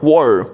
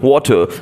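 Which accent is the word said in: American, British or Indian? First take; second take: American; Indian. First: It is said in an American accent. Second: It is said in an Indian accent. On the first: "when you speak the same word in American accent" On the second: "if you say the word water in India"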